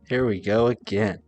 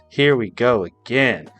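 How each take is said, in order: First: It sounds weary and unexcited. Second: It sounds upbeat and excited.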